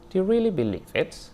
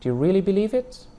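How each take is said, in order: First: The rise is low in the speaker's pitch range. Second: The rise is high in the speaker's pitch range.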